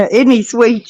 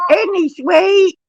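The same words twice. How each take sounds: First: Said in the usual way. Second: "Isn't he sweet?" cooed much higher and drawn out; cooing high and slow. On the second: Real, not acted. Nanny cooing to her grandson, higher and slower.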